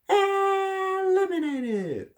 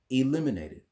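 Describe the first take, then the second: First: It is said in an exaggerated, dramatic announcer voice. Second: It is said in a plain, ordinary voice. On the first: The speaker calls it wrong. "instead of eliminated" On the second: The speaker calls it right. "Just say it like this"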